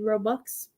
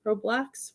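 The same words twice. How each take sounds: First: "Roblox" slipped out as "Ro-bucks", without the L; unsure pronunciation. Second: "Roblox" said with the L, "ROE-blocks"; self-corrected pronunciation. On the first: Parent naming the kids' game, "Roblox" fumbled as "Ro-bucks". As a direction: say "Roblox" wrongly as "ROE-bucks". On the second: Parent fixing the game's name, "Roblox" as "Ro-blocks". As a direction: correct it to "Roblox", ending in "blocks", rising unsurely. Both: Real, not acted. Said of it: "whatever it's called".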